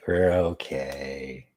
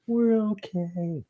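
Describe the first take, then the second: First: Low, slow "we're okay"; low drawn-out reassurance. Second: Very high, drawn-out falsetto; high silly voice. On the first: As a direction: stretch it out in a low register. Repeats line in two registers. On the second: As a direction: squeak it out slowly, way up high. Repeats line in silly high voice. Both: Pretend.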